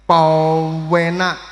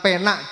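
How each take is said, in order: First: The word is stretched out long. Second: The word is said at normal length. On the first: It is very nice. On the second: It is nice.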